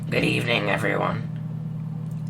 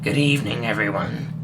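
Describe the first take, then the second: First: It is spoken in a masculine-sounding voice. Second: It is spoken in a feminine-sounding voice.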